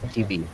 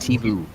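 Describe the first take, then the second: First: It is said as two separate letter names. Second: It is said as one word, 'tivu'. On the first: The speaker calls it right. "pronunciation is T V" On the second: The speaker calls it wrong. "not Tivu"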